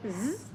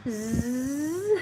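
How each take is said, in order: First: Brief zzz cut short; short buzz. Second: Drawn-out zzz; long dragged buzz. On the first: Learner contrasting undragged words with a short buzz. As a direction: make a quick, short zzz. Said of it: "Instead of". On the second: Learner imitating dragged words with a long buzz. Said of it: "Almost dragging the words". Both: Shown as a demonstration.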